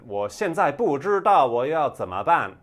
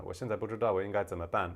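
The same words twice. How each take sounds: First: "我现在不知道我要怎么办" high and very loud, big swings; loud, exaggerated tones. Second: "我现在不知道我应该怎么办" quick and nearly level; understated Taiwanese tones. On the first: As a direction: belt out "我现在不知道我要怎么办" with full northern tones. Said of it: "speaking a lot louder". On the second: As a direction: run through "我现在不知道我应该怎么办" fast, tones reduced. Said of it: "The tones were still there". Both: Shown as a demonstration.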